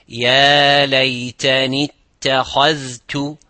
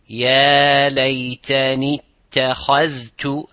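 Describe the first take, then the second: No difference in how they are said.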